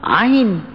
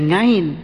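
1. Diawali dengan bunyi vokal biasa. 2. Diawali dengan bunyi ng.

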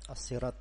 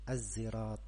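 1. Kata ini dimulai dengan bunyi s emfatis. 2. Kata ini dimulai dengan bunyi z. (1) "bisa dibaca dengan sad" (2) "bisa dibaca dengan zai"

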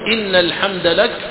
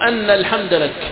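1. تبدأ الكلمة الأولى بالصوت 'i'. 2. تبدأ الكلمة الأولى بالصوت 'a'. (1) "يجوز فيها كسر الهمزة" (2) "وفتحها"

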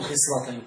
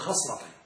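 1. الصائت الأول ليس صوت 'a'. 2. الصائت الأول هو صوت 'a'. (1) "لا تقول خصلتين" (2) "قل خصلتين بفتح الخاء"

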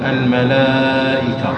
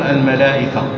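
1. يُمَدّ حرف المد قبل الهمزة مدًّا واضحًا. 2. يُنطق حرف المد قبل الهمزة قصيرًا. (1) "لابد أن تمدها الملائكة" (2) "لا يجوز لك أن تقول الملائكة، ما الطبيعي خطأ"

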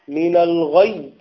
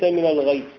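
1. صوت الياء النهائية مضعّف ومشدّد. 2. صوت الياء النهائية مفرد وغير مشدّد. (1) "مهم جدا أن يأتي الإنسان بالنبر في الشدة" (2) "وليس"

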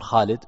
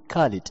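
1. الاسم يبدأ بصوت خاء حلقي. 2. الاسم يبدأ بصوت كاف قوية. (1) "الأعلام تنطق كما هي" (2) "من الخطأ أنك تقول كالد"

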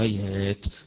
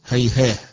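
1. تنتهي الكلمة بصوت التاء. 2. تنتهي الكلمة بصوت الهاء. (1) "قالوا هيهات بالتائفة" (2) "إذا وقفوا عليها قالوا هيهاه"

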